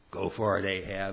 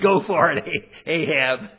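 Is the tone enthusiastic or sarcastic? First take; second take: sarcastic; enthusiastic. First: It is said with a mocking, sarcastic tone. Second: It is said with sincere, cheering enthusiasm. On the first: The speaker means the opposite of the words. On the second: The speaker truly encourages the king to go.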